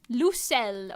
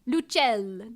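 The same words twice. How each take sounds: First: The name is pronounced the French way. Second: The name is pronounced the Italian way. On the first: "I'll type in uh French" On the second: "if we say that in Italian"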